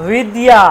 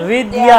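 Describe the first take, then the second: The two takes are said the same way.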